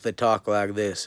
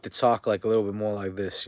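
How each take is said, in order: First: Lightly put-on American South accent; Southern US accent. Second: Lightly put-on American North accent; Northern US accent. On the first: Speaker showing how the South talks, light Southern US accent. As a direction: talk with a touch of Southern US twang. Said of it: "in the South". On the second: Speaker comparing North with South, light Northern US accent. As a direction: contrast it with a touch of Northern US speech. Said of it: "versus the North". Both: Shown as a demonstration.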